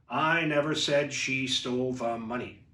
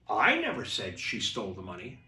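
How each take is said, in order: First: It is said flat, with no word stressed. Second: One word is given strong emphasis.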